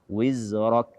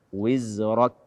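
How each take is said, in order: Both takes have the same delivery.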